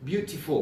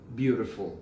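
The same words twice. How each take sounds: First: The middle consonant is a clear t sound. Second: The middle consonant is a soft d-like sound. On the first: "this is the British way" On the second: "American people say beautiful"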